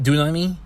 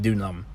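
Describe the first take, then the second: First: The final 'i' vowel is pronounced. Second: The final 'i' vowel is dropped. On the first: "you write dunami" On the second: "I believe you just say dunam"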